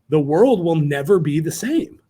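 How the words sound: It is said in an excited, hopeful tone. Things have changed in an exciting way. "that could be a very exciting and wonderful thing"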